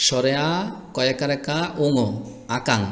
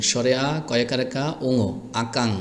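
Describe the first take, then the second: No difference in how they are said.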